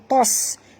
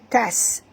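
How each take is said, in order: First: The t sound is heavy and thick. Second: The t sound is light and thin. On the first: The speaker calls it wrong. "jangan baca tos" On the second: The speaker calls it right. "tapi baca tas"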